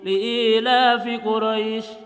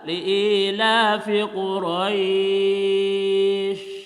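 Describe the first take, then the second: First: The final long vowel is held for two counts. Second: The final long vowel is held for four counts. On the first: "dua harakat misalkan. Maka li'ila bil dua harakat" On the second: "Kita dibaca empat misalkan"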